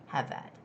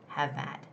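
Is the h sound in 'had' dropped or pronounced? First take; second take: dropped; dropped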